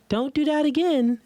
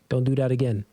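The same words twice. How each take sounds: First: A smaller, lighter, less imposing voice. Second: A calm, big, deep, unemotional voice. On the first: The mother figure sounds less imposing. "But mom is like you know littler, and her tone is like" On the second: The father figure corrects without emotion. "So it's no emotions, but it's like you said, my tone"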